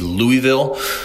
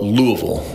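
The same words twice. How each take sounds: First: The name is said with its syllables in full. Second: The name is reduced to sound like Lou-uh-vul. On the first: This is how outsiders say the name. The speaker calls it wrong. "I've always considered this town to be Louisville" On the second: This is how locals say the name. The speaker calls it right. "the locals call it Louisville, which is, if you're looking at it phonetically, L-O-U-A-V-U-L"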